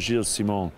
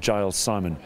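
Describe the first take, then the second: First: The name is said in its original, non-English way. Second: The name is said as an English name.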